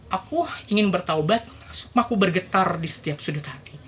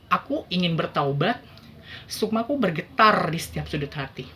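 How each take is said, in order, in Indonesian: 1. Terdengar terputus-putus dan ragu-ragu, dengan kata-kata yang tersendat. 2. Terdengar terputus-putus dan ragu-ragu, dengan kata-kata yang tersendat.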